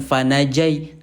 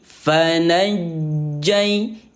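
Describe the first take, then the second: First: The J sound is short and single. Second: The J sound is held and doubled. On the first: The speaker calls it wrong. "bukan fanajai" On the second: The speaker calls it right. "double J"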